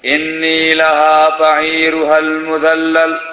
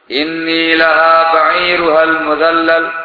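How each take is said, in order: No difference in how they are said.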